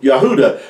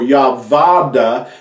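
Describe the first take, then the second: First: The middle syllable has an oo vowel sound. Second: The middle syllable starts with a v sound. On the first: The speaker calls it right. "You hear the ooh" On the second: The speaker calls it wrong. "or Yavada"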